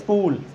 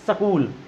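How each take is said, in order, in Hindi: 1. s से पहले 'i' का केवल हल्का सा आभास होता है। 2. s के बाद एक स्वर आता है; पहले कोई स्वर नहीं आता। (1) "इस तरीके से बोलना है" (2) "बहुत लोग बात करते हैं तो इसको बोल देते हैं सकूल"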